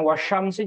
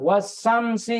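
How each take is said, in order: First: The consonant after wa is sh. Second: The consonant after wa is a plain s. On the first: The speaker calls it right. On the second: The speaker calls it wrong.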